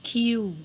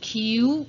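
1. พยางค์นี้ออกเสียงด้วยเสียงกลาง 2. พยางค์นี้ออกเสียงด้วยเสียงสูง (1) "อักษรต่ำเสียงสามัญ" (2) "ส่วนเสียงตรีจะอยู่ในวรรณยุกต์โทก็คือ"

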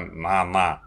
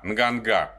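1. После «н» отчётливый звук «г» не слышен. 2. После «н» слышен отчётливый звук «г».

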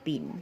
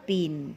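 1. พยางค์นี้มีเสียงกลาง 2. พยางค์นี้มีเสียงตก

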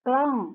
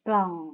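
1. พยางค์นี้ใช้เสียงตก 2. พยางค์นี้ใช้เสียงต่ำ (1) "เสียงโท" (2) "เสียงเอก"

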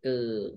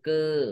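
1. พยางค์ "กือ" ออกเสียงด้วยเสียงต่ำ 2. พยางค์ "กือ" ออกเสียงด้วยเสียงตก (1) "ไม้เอก" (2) "ไม้โท"

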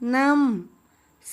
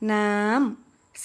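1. พยางค์นี้ออกเสียงตก 2. พยางค์นี้ออกเสียงสูง (1) "เสียงโท" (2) "เสียงตรี"

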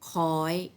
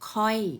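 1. พยางค์นี้อ่านด้วยเสียงสูง 2. พยางค์นี้อ่านด้วยเสียงตก (1) "รูปโทก็จริงแต่เป็นเสียงตรี" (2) "รูปเอกแต่เป็นเสียงโท"

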